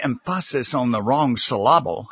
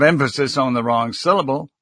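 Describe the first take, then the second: First: "emphasis" and "syllable" deliberately stressed on the second syllable; stress on wrong syllables. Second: Said in the usual way. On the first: Shown as a demonstration. Speaking coach jokes about mistakes, mis-stressing "emphasis" and "syllable" on their second syllables. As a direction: say em-FASS-is for "emphasis" and suh-LAH-bul for "syllable". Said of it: "instead of emphasis on the wrong syllable". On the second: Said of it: "put the emphasis on the wrong syllable".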